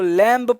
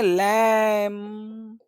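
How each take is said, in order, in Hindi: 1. शब्द के अंत में सुनाई देने वाली b ध्वनि है। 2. शब्द m पर समाप्त होता है, उसमें b नहीं है। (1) "लैम्ब पढ़ें कि लैम पढ़ें" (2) "इसको पढ़ेंगे लैम"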